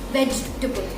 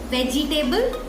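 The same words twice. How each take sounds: First: The unstressed vowel is a short schwa. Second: The unstressed vowel is a full, clear vowel. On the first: The speaker calls it right. "very short, very clipped uh" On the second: The speaker calls it wrong.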